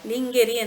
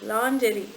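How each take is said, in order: First: It starts with 'ling' and uses a hard g. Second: It starts with 'lon' and uses a soft j. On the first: The speaker calls it wrong. "ಇದು ಲಿಂಗೆರಿ ಅಂತ ಕರೆಯೋದು" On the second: The speaker calls it right. "ಆದರೆ ಇದನ್ನು ಲಾಂಜೆರಿ ಲಾಂಜೆರಿ ಅಂತ ಕರಿಬೇಕು"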